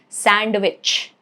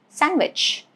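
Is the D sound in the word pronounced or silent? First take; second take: pronounced; silent. First: The D sound is pronounced. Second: The D sound is silent. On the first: The speaker calls it wrong. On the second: The speaker calls it right.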